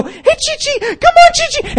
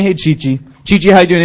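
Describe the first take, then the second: First: Imitating very high, squeaky calls to a little dog; excited dog trainer. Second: Imitating a calm greeting to a dog. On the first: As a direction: coax a tiny dog in falsetto. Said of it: "they showed it. They go". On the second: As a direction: greet the dog evenly, without excitement. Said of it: "and it was so calm".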